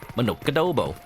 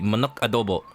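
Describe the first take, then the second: First: The words run together as one flowing word. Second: The two words are kept separate. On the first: "it rolls off the tongue, right? It just keeps going every syllable" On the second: "I guess as written, it would be"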